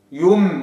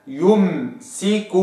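First: يم with the m clipped off; wrong take. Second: يمسك slowly, u then full m; held m. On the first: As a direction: say يم as the error. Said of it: "ما أقولش يم". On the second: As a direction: stretch يمسك keeping the damma. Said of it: "هكذا". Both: Shown as a demonstration.

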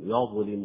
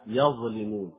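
First: يظلمون بياء غير مفتوحة; اقرأ يظلمون خطأً; wrong reading. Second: يظلمون بفتح الياء بوضوح; افتح ياء يظلمون; correct open ya. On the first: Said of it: "خطأ". (نطق خاطئ ليظلمون) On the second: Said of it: "لا بد من فتح الياء". (فتح الياء في يظلمون) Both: Shown as a demonstration.

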